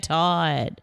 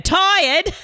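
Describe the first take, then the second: First: The word is said flatly, with low energy. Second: The word is said brightly, with high energy. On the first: "And you feel low energy" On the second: "You don't go"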